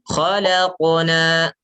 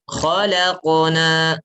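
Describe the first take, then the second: The two takes are said the same way.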